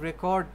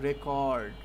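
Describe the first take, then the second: First: The stress is on the second syllable. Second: The stress is on the first syllable. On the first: It is used as a verb. "এটা হচ্ছে verb." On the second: It is used as a noun. "এটাতে noun বুঝাইলে আপনি শেষে মানে আগে টানটা দিবেন।"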